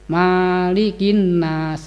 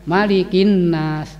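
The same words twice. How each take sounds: First: The first vowel of Malikin is drawn out long. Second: The first vowel of Malikin is said short. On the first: Owner or ruler of mankind. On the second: King of mankind.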